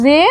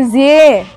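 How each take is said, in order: First: जे said as a simple "ze"; a clean buzzed Z straight into the vowel of जे; plain Z sound. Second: जे said as "zye", a y blended in after the Z; Z with y-glide. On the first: Teacher contrasting two similar letters for learners, plain Z on जे. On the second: Teacher contrasting two similar letters for learners, glided "zye" for जे. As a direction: glide from Z through y into a long जे. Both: Shown as a demonstration. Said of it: "थोड़ा आधा ज और ये उसमें भी मिला".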